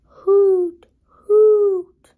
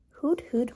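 First: High, loud hooting owl. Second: Said in the usual way. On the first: Acted. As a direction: call out like an owl.

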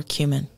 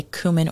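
First: Cumin said as KYOO-min; cumin pronounced "KEW-min"; first syllable "kyoo". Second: Cumin said as COO-min; cumin pronounced "KOO-min"; first syllable "coo". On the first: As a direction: say cumin with a y glide after the k. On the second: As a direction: say cumin with an "oo", no y sound. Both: Shown as a demonstration. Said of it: "I don't know if you say".

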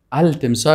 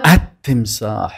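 First: التمساح as "al-timsaah", with an audible l; lam wrongly pronounced. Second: التمساح as "at-timsaah", silent l, doubled t; assimilated lam. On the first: Teacher showing students the mistake, التمساح said "al-timsaah" with l. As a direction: sound the l before the t in التمساح. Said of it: "اگر کس بگویه غلط است". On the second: Teacher modelling a sun letter for students, التمساح as "at-timsaah". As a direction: say التمساح slowly with the l merged into a held t. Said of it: "لامش دو تلفظ نمیشه". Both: Shown as a demonstration.

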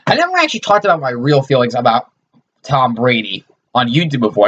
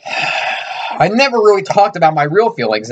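First: Said in the usual way. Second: Higher, slow, hammed-up sincerity; mock heartfelt confession. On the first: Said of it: "Now, this is actually real". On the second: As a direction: fake a tearful big reveal, slowly. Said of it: "That was a joke".

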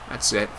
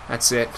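The two takes are said the same way.

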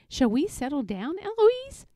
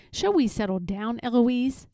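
First: Cheeky echo, name swooping up high; mimicking the tutor. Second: The tutor's measured admonishment; firm, at an ordinary pitch; Philip. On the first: Eloise copying her tutor, cheeky and rising. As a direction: parrot it back with a rising lilt. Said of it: "And I say". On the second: Tutor telling Eloise to settle, firm and contained. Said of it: "And he says". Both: A narrator's reading.

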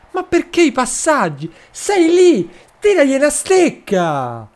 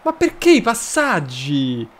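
First: Higher, louder "Ma perché i passaggi?" with the pitch thrown up in frustration; rising exasperated shout at the player; exasperated outburst. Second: Said in the usual way. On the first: Real, not acted. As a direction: yell at the screen to just shoot. Yelling at the player to shoot.

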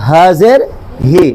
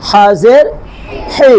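First: Light h in "হাজের হি"; contrasting light Ha. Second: Firm friction in "হাজের হি"; Arabic throat Ha. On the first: (হালকা শ্বাসে "হি") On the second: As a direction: say "হি" as a tight, rasped throat h. (গলা চেপে "হি") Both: Shown as a demonstration. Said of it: "পার্থক্য আছে নাই?".

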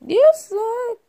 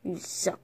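First: Shouted taunt, punchy; loud taunt. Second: Low, muttered taunt; quiet taunt. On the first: Toy fighter taunting a rival, shouting. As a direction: hurl the insult. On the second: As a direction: mutter the insult under breath. Taunting in toy fight. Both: Pretend.

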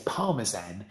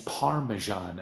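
First: Parmesan said the British way, with a crisp z; British pronunciation. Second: Parmesan in a rough American accent. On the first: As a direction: say Parmesan as in the UK, z not zh. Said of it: "we say Parmesan in". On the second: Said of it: "sorry for my terrible accent". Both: Shown as a demonstration.

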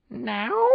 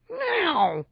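First: High meowed question; cat's questioning meow. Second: Very high, drawn-out meowed word; emphatic cat meow. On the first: Cat asks his human companion, questioning meow. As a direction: meow the word like a curious cat. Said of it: "asked Pete". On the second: Cat answers his human companion, emphatic meow. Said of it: "Pete answered emphatically". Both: A narrator's reading.

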